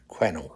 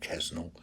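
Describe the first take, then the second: First: No S sound is pronounced in the middle. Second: An S sound is pronounced in the middle. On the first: The speaker calls it right. "they don't pronounce the S" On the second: The speaker calls it wrong. "it's not Quesnel"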